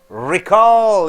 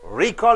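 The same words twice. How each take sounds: First: The stress is on the second syllable. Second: The stress is on the first syllable. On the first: It is used as a verb. "you stress on call, recall is a verb" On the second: It is used as a noun. "Recall is a noun"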